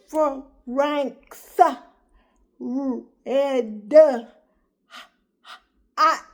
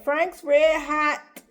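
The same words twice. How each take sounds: First: It imitates his baby girl reading haltingly. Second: It is said in his normal adult voice.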